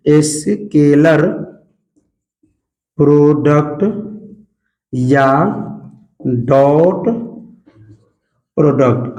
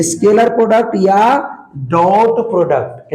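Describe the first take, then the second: First: scalar product या डॉट product spelled out very slowly, long pauses between words, lower; slow dictation. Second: Said in the usual way. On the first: Shown as a demonstration. Teacher dictating the term to his class, very slow and lower. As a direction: dictate each word slowly for notes. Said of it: "तो इसी को हम लोग कहते हैं". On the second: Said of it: "क्या बोलते हैं?".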